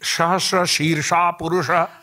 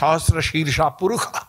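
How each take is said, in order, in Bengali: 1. মূর্ধন্য স উচ্চারিত হয় sh হিসেবে। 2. মূর্ধন্য স উচ্চারিত হয় kh হিসেবে। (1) "আমরা যখন স্নান মন্ত্র বলি" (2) "ওরা বলে ... মূর্ধন্য স ... খ উচ্চারণ করেন"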